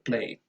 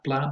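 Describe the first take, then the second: First: The syllable has an 'ay' vowel. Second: The syllable has an 'ah' vowel. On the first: The speaker calls it right. "but play" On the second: The speaker calls it wrong. "Not pla"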